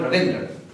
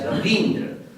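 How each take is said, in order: First: The vowel after 'Rav' is short. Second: The vowel after 'Rav' is long. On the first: The speaker calls it wrong. "There is no name sh sh that should be called Ravindra. It's completely wrong" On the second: The speaker calls it right. "make it Ravindra and pronounce it also as Ravindra"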